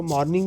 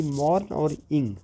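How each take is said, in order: First: Said in the usual way. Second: "mourn और इंग" said as two separate parts; split into syllables. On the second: Shown as a demonstration. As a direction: break after "mourn", then give "इंग" on its own. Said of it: "दो syllable है". ("Mourn और इंग" को दो अलग syllable में तोड़कर बोलें)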